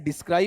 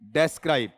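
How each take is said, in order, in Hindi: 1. पहला शब्दांश 'dis' जैसा लगता है। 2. पहला शब्दांश 'des' जैसा लगता है। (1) "अरे डिस्क्राइब नहीं"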